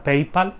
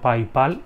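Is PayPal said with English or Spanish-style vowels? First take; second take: English; Spanish. First: The name is said with English-style vowels. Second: The name is read with Spanish-style vowels. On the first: This is the accepted pronunciation. "sé que se pronuncia PayPal" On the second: This is how the speaker always says it. "he dicho PayPal"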